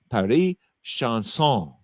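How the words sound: The name is said with a French-style accent. The speaker calls it right. "they showed me how to say it"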